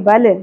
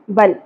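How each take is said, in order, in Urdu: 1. آخری لام ایک گونجتے ہوئے جھٹکے کے ساتھ ختم ہوتا ہے۔ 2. آخری لام بغیر کسی جھٹکے کے صاف رک جاتا ہے۔ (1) "بل نہیں پڑھنا" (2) "لام ساکن پہ قلقلہ نہیں ہونا چاہیے"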